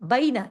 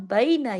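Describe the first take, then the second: First: The first vowel glides from a toward i. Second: The first vowel glides from a toward i.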